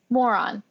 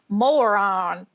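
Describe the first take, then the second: First: It is said in a plain, neutral accent. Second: It is said in a thick Southern American accent.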